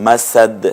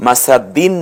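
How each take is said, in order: First: মাসাদ ending on a bounced d; stopped ending. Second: মাসাদিন with final "-in" sounded; full case ending. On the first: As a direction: stop on the d of মাসাদ, no "-in". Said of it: "না হয়ে". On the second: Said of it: "মাসাদিন না হয়ে". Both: Shown as a demonstration.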